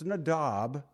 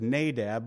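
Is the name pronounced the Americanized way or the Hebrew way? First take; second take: Hebrew; Americanized. First: The name is said in a Hebrew way. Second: The name is said in an Americanized way. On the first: The speaker calls it right. "but it's Nadab" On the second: This is the common everyday pronunciation. The speaker calls it wrong. "I know everybody says Nadab"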